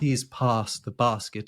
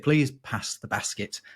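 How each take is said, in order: First: It is said in a southern English accent. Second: It is said in a northern English accent. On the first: "I don't say" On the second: "I say"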